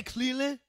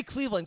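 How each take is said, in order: First: "Cleveland" with the V dropped, like Clee-lind; mock the V-less "Cleveland", questioning. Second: "Cleveland" with a clear V, Cleev-lund; V pronounced. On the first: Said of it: "They don't say the V". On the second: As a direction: sound the V firmly in "Cleveland". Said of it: "we believe in V's". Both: Shown as a demonstration.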